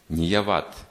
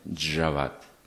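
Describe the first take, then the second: First: The word begins with a y sound. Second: The word begins with a j sound. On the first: "не «яват»" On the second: "Как в Индии говорят"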